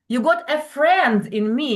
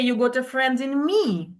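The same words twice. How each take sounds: First: The stress falls on the word friend. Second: The stress falls on the word me. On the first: We are becoming friends, not enemies. "stress on the word friend" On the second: I, not someone else, am going to be the friend. "So it means I am going to be a friend, not uh, someone else"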